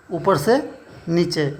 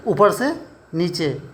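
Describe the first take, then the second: No difference in how they are said.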